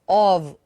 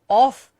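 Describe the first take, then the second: First: The word ends with a v sound. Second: The word ends with an f sound. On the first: The speaker calls it right. "it is of" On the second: The speaker calls it wrong. "it is not off"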